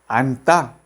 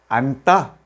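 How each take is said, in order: No difference in how they are said.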